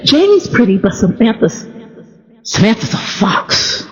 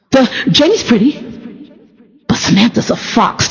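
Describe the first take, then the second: First: A hushed, airy grandma on the fox part; breathy grandma. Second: Said in the usual way. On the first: Retold or imitated. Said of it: "Do you hear the breathiness in that last statement". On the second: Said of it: "Do you hear the breathiness".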